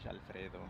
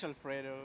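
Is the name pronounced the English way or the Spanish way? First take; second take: Spanish; English. First: The name is said with a Spanish pronunciation. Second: The name is said with an English pronunciation. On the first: "in Spanish" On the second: "in English"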